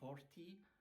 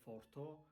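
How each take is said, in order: First: The word ends in an ee sound. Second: The word ends in an o sound. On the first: "It's not forti" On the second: "it's not forto"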